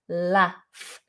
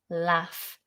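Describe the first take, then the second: First: The vowel is short, like in 'cat'. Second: The same.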